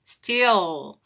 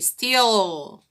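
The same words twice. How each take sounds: No difference in how they are said.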